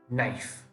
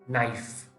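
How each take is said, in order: No difference in how they are said.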